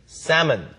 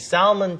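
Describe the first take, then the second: First: The L sound is silent. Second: The L sound is pronounced. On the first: The speaker calls it right. "L 발음이 아예 없는 것처럼 발음해주세요" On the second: The speaker calls it wrong. "발음이 salmon 절대 안 되고요"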